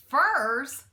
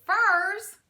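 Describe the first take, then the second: First: Loud rising furs, amazed; cried out in disbelief. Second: Much higher and louder, laughter breaking in; higher, laughing disbelief. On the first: Mac learns what thieves want, disbelieving cry. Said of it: "he cried out". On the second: Mac cracks up at the thieves, laughing cry. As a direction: squeal it on the edge of laughter. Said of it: "Mac started to laugh". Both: A narrator's reading.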